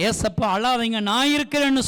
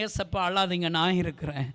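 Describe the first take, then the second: First: Said in the usual way. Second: Soft, low, intimate; hushed, lower, gentle promise; tender whisper to Jesus. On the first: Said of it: "சொல்றவங்க". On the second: Retold or imitated. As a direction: comfort him quietly. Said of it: "நான் அப்பாவை பார்த்து சொன்னேன்".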